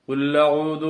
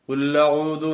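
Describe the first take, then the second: First: The l runs straight into the next word. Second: The l runs straight into the next word.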